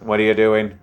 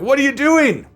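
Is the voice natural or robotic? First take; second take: robotic; natural. First: It is said in a put-on robotic voice. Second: It is said in a natural human voice.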